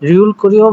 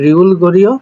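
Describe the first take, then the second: First: The second word begins with a tense k sound. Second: The second word begins with a soft g sound. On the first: "পরিবর্তন হয়ে হচ্ছে কি রিউল করিও" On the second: "হওয়ার কথা ছিল হচ্ছে রিউল গরিও"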